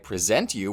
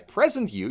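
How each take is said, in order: First: The stress is on the second syllable. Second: The stress is on the first syllable. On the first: Someone is offering or showing something. "I present you with this video" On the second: Someone is being turned into a gift. "you'd worry about getting stuffed in a box with a bow on it"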